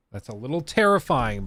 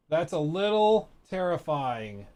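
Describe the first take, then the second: First: Said in the usual way. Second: Slow drawn-out repeat of "That's a little terrifying"; savoring echo. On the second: Shown as a demonstration. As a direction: stretch "little" and linger on "terrifying" as if tasting it.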